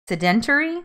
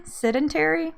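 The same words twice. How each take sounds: First: "Sedentary" said as suh-DEN-tuh-ree, questioning; unsure pronunciation. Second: "Sedentary" said as SED-en-tair-ee, higher pitched; alternative pronunciation. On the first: Testing how to say a word, "Sedentary" as suh-DEN-tuh-ree. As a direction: try "Sedentary" with the stress on DEN. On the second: Testing how to say a word, "Sedentary" as SED-en-tair-ee. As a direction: try "Sedentary" with the stress on SED. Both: Shown as a demonstration. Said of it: "I don't know how to say it".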